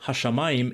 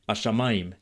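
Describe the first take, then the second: First: The initial h sound is clearly pronounced. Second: The initial h sound is silent or faint.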